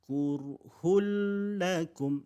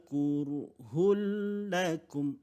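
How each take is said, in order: No difference in how they are said.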